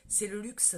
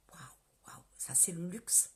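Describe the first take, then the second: First: Said in the usual way. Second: Dreamy whisper. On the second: Real, not acted. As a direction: whisper it like a dream come true. Rêverie sur le luxe, chuchotée. (chuchotement rêveur et lent)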